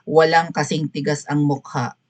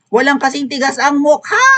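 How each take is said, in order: First: It is said flatly, without emotion. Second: It is said with intense, exasperated emotion.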